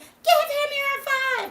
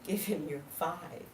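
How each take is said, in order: First: It is screamed very loudly. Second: It is said at normal loudness.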